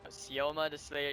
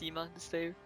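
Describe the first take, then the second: First: The name is said with three syllables. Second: The name is said with two syllables. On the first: The speaker calls it wrong. "they're pronouncing player's name is wrong the whole time" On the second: The speaker calls it right. "it seems like pronounced"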